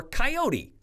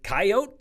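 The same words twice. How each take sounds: First: "coyote" said kai-OH-tee; three-syllable pronunciation. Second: First "coyote" said KAI-oat, silent final e; two-syllable pronunciation. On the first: Reporter offering the other option, "coyote" pronounced kai-OH-tee. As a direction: sound the final e of "coyote" as tee. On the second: Reporter wanting to know, "coyote" pronounced KAI-oat. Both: Shown as a demonstration. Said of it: "we wanted to know".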